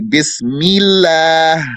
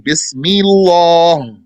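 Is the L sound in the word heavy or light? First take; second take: light; heavy. First: The L is pronounced light and thin. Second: The L is pronounced heavy and thick. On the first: The speaker calls it right. "sometimes it's going to be light the original way" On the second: The speaker calls it wrong. "You don't say"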